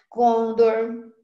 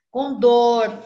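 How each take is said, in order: First: Condor as CON-dor, stress on the first syllable, loud; prosody error. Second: Condor as con-DOR, DOR loud and long; stress on last syllable. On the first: Teacher cites people's prosody errors, condor stressed on CON. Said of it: "o pessoal comete erro de prosódia". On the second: Teacher models the correct word, condor stressed loudly on DOR. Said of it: "o dor". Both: Shown as a demonstration.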